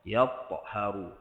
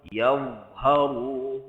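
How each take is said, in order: First: The middle consonant drifts toward a ta sound. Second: The middle consonant is a clear dha sound. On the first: The speaker calls it wrong. "dia pergi pada makhraj huruf ta" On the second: The speaker calls it right. "contoh sini"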